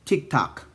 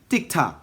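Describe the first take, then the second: First: It is said with an American accent. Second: It is said with an American accent.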